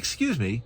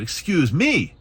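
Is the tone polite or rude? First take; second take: polite; rude. First: It is said in a polite, gentle tone. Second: It is said in a harsh, rude tone.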